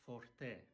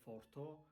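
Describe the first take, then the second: First: The word ends in an e sound. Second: The word ends in an o sound. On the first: The speaker calls it right. "it's forte. E, e" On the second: The speaker calls it wrong. "it's not forto"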